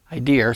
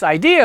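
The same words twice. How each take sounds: First: Idea said "idear", New England style; New England accent. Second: Said in the usual way. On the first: Real, not acted. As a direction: let the New England R slip onto the end of idea. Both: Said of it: "that's my New England accent coming out".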